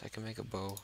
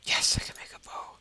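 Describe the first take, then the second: First: Said in the usual way. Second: Loud, forceful stage whisper; excited whisper. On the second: Real, not acted. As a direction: whisper it hard, thrilled at the find. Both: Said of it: "I'm whispering again".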